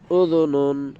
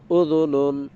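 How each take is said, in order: The two takes are said the same way.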